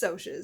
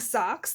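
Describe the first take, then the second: First: The word is said like the start of 'social'. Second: The word is said like 'socks'. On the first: The speaker calls it right. "but it's Socs because that does make more sense because they're socials" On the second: The speaker calls it wrong. "I've been saying socks this whole time because that's how it looks like in the book"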